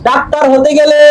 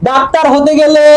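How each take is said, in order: No difference in how they are said.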